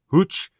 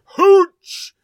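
First: The word is said at normal volume. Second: The word is yelled loudly. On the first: "Is that how you pronounce that?" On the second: "It has an exclamation point, so you got to make sure you yell it"

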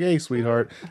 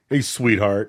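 First: It is said gently, as to a child. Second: It is said in a condescending tone.

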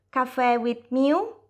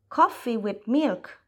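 First: The phrase has Thai-style pronunciation ending in 'miu'. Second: The phrase has English pronunciation with a final 'lk'. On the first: The speaker calls it wrong. "e non un caffè with miu" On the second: The speaker calls it right. "aveva lavorato di più sulla pronuncia"

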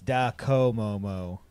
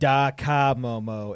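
First: The second syllable has an 'oh' vowel, 'ko'. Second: The second syllable has an 'ah' vowel, 'ka'. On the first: The speaker calls it right. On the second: The speaker calls it wrong. "We keep saying"

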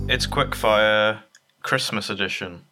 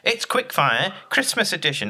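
First: It is said in a flat, unenthusiastic voice. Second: It is said in a lively, enthusiastic voice. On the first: The speaker calls it wrong. "Don't sound too excited" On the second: The speaker calls it right. "Is that better?"

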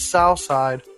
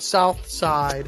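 First: It is said the Pittsburgh way, without the th. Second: It is said the standard way, with the th.

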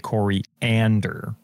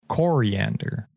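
First: The O sound is not emphasized. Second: The O sound is emphasized. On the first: "I say coriander" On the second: "She emphasizes the O"

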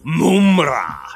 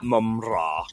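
First: The name is said in an imitated character accent. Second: The name is said in a normal accent. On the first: This is how the character says the name. The speaker calls it wrong. "he always calls him Mumra" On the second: This is the usual way to say the name. The speaker calls it right. "not Mumra"

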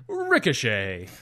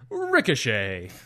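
First: It is said in a ring announcer voice. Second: The same.

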